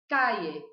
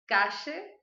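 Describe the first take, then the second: First: The ll is said like an i sound. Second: The ll is said with an Argentine accent. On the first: "essa seria a pronúncia que eu adoto" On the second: "da Argentina e do Uruguai"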